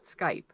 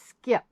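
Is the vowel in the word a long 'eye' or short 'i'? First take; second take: long eye; short i. First: The vowel is a long 'eye' sound. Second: The vowel is a short 'i' sound. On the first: The speaker calls it wrong. "It's not Skype" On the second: The speaker calls it right. "So it's skip. I'm pretty sure it's skip"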